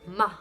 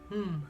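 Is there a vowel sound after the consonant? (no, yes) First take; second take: yes; no. First: The consonant is followed by a vowel sound. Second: The consonant is said alone without a vowel. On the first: The speaker calls it wrong. "I don't say ma" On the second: The speaker calls it right. "It would be hmm"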